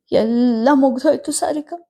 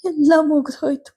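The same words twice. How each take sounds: First: Mother breaking down, leaning on ಮುಗ್ದೋಯ್ತು; grieving, lightly voiced old mother; tearful mother. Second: Grieving mother leaning on ಎಲ್ಲ; ಎಲ್ಲ hit high, close to tears; tearful mother. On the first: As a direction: stress on ಮುಗ್ದೋಯ್ತು, a higher tearful voice. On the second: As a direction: stress on ಎಲ್ಲ, much higher tearful voice. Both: A narrator's reading. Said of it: "ಕಣ್ಣೀರು ಗರೆದರು".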